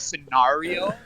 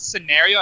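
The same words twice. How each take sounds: First: The A vowel is stretched and overemphasized. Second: The A vowel is said in an ordinary way.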